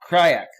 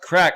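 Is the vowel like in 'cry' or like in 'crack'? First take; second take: cry; crack. First: The vowel sounds like the one in 'cry'. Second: The vowel sounds like the one in 'crack'. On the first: The speaker calls it wrong. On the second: The speaker calls it right.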